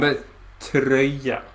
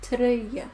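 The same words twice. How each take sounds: First: Tröja said slowly with rounded ö, not "troja"; correct Swedish tröja. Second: Tröja said by a learner, ö unclear; a tentative learner tröja; learner attempt. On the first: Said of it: "inte troja". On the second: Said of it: "Did I do it wrong still?". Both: Shown as a demonstration.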